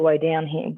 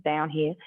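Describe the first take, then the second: First: Slipping into an Australian accent. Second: Said in the usual way. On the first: Real, not acted. Exercise teacher guiding the class down, accidentally sounding Australian. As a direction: let the vowels go Australian by accident. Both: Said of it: "sorry, that sounded very Australian".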